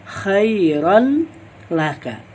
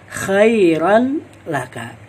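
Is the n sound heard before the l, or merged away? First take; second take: heard; heard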